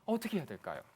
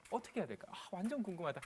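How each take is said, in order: First: Said in the usual way. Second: Much softer, as if thinking aloud; curious muttering. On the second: Acted. Lecturer speaking the audience's thought, quiet curious aside. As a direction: voice the listener's private wondering under your breath.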